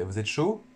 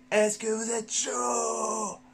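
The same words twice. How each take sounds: First: Said in the usual way. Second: Drawn-out shouted hype question, much higher. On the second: Acted. Host fires up his live viewers, shouting slowly and much higher. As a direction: fire up the crowd like a stadium host, slow and high.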